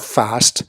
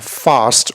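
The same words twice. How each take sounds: First: It is said with an American accent. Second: It is said with a British accent. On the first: "or the American" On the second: "the British"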